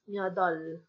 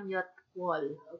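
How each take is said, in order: First: It is said with a d and no w. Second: It is said with a t and w. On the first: The speaker calls it right. "ang pronunciation niya is myodol" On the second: The speaker calls it wrong. "Hindi natin siya pa-pronounce na myotwol"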